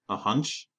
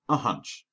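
First: Hunch? lifted in a rising question tune; wry rising A hunch?; quipping question. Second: Hunch with a settled falling tune; calm falling A hunch; flat confirmation. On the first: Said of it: "Astur quipped". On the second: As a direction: state A hunch as plain fact, falling. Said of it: "Clutch confirmed". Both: Acted.

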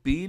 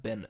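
First: Been said as long "been" like bean; wrong pronunciation. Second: Been said short, like "ben"; correct pronunciation. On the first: Teacher showing students the wrong been, long ee. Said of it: "इसको been नहीं pronounce करना". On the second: Teacher showing students the right been, short like ben. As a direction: say been short and clipped, as in dustbin. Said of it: "इसको आपको बोलना है been". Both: Shown as a demonstration.

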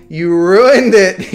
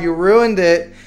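First: Louder, slow, stretched complaint; drawn-out loud whine. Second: Said in the usual way. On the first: Real, not acted. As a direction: drag it out and wail it. Streamer repeats complaint, building up.

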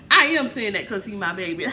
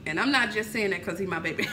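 First: Louder, laughing as she owns up; laughing admission. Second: Said in the usual way. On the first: Real, not acted. Mother admits bias about her son, laughing. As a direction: laugh it out, caught in the joke. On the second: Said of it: "I am saying that 'cause he my baby".

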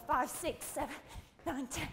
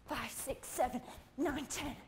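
No difference in how they are said.

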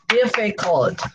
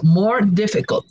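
First: "Difficult" in three separate beats, DIF-FI-CULT; syllable by syllable. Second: Said in the usual way. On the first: Shown as a demonstration. Teacher counts three syllables for learners, syllable by syllable. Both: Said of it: "three syllables".

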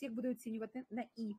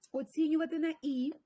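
First: Said in the usual way. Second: "Оцінювати на «і»" louder and higher, prompting the answer; emphatic repeat. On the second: Shown as a demonstration. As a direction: push "Оцінювати" up to cue the class.

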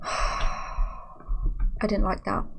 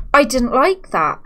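First: Slow, soft and breathless, after a sigh; sighing whisper. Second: Said in the usual way. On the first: Real, not acted. Streamer tells chat she disliked the scare, whispered on a sigh. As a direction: let it out on a shaky sigh, barely voiced. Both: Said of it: "If I'm being honest with you".

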